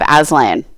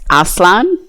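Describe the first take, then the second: First: It is pronounced the English way. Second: It is pronounced the native way. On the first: The speaker calls it wrong. "So I have Aslan" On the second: The speaker calls it right. "it's meant to be pronounced Aslan"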